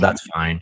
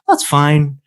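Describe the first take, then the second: First: It sounds annoyed and displeased. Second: It sounds genuinely okay and relaxed.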